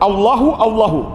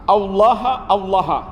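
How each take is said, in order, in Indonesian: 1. Setiap kata berakhir dengan vokal 'u'. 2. Setiap kata berakhir dengan vokal 'a'. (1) "Ini bisa dibaca di rafa, di dhammah" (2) "Bisa juga dibaca dengan cara di nasab, di fathah"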